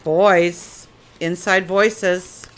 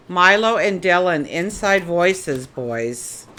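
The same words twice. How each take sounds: First: Slower and louder firm call; calling the dogs louder. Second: Calling out to the dogs to settle. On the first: Owner calls the barking dogs again, louder and firmer. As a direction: raise the voice so the dogs hear. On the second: Owner calls loudly to her dogs to use inside voices. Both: Real, not acted.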